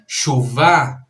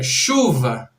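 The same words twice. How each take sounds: First: The stress is on the last syllable. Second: The stress is on the first syllable. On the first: The speaker calls it wrong. "não é chuva" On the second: The speaker calls it right. "a tônica da palavra chuva está em chu"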